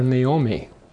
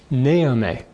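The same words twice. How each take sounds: First: The stress is on the second syllable. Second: The stress is on the first syllable. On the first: This is not what her parents called her. "they didn't call her Naomi" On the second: This is what her parents called her. "The emphasis on the first syllable, rather than on the second syllable"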